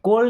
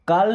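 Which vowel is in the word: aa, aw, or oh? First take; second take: oh; aa. First: The vowel is a closer 'oh' sound. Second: The vowel is a long open 'aa' sound. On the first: "कोल नहीं बोल रहा" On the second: "तो इसे काल नहीं पढ़ते"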